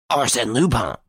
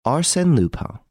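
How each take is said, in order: First: High-pitched, stunned repetition; stunned echo. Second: High, emphatic self-introduction; name reveal. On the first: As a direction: echo the name in shock. Varin echoes the name, stunned. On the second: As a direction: announce your name as a reveal. Lupin reveals his name to Varin. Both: A narrator's reading.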